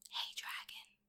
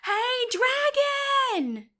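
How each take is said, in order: First: It is whispered very softly. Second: It is shouted very loudly.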